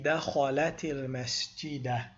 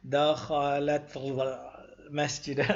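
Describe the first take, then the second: First: The first word ends with an added vowel. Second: The first word ends on a bare consonant. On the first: The speaker calls it right. "You have to put a, a, a vowel" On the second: The speaker calls it wrong. "we'll have to say something like dakhalat al-masjida, and that wouldn't work"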